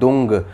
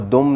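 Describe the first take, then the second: First: The syllable ends with an ng sound. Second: The syllable ends with an m sound. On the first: The speaker calls it right. "ये है दुंग, यानी कि अंगा" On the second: The speaker calls it wrong. "वो दुम नहीं है"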